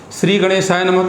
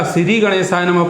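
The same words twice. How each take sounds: First: Said in the usual way. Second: श्री split into si-ri, with a plain s; Punjabi pronunciation. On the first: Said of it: "श्री को सिरी बोलते हैं". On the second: Shown as a demonstration. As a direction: say श्री as two syllables, si-ri, before गणेशाय. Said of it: "Punjab वाले हैं तो श्री को सिरी बोलते हैं". (पंजाबी ढंग से श्री को सिरी बोलते हुए)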